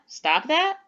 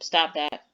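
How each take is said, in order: First: It is said with a questioning tune. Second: It is said flatly, like a plain statement. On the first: It asks whether they should stop. "Am I asking them to stop that?" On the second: It simply states something. "with a period, like a general statement"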